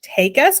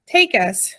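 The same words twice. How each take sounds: First: Higher, rising incredulous question; high rising cry of disbelief; strange hollow cry. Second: Mildly rapt, falling statement; understated dreamy wonder; rapt with the vision. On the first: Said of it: "cried Homily in a strange, hollow voice". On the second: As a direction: breathe out the hope, ending downward. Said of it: "against the brightness of the vision". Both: A narrator's reading.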